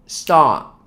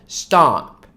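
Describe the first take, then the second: No difference in how they are said.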